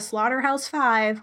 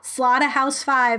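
First: It is said with an American accent. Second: It is said with a British accent. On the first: The accent the role calls for. "instead of" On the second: The actor's own accent slipped through. "if you're going to say"

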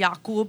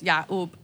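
First: The middle of the name has a deep 'k' sound. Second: The middle of the name has a catch in the throat instead. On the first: "which is with a cough" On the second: "certain Arabs don't pronounce the cough sound and they just make it like a hamza"

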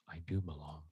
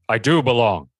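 First: It is said very quietly and timidly. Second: It is said loudly and theatrically.

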